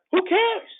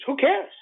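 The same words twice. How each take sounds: First: Much higher, incredulous who cares; Who cares, with cares thrown way up high; emphatic repeat. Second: Who cares, rising at cares, the first time; dismissive question. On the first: Repeated louder in pitch. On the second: Dismissing the losers, repeated. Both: Real, not acted.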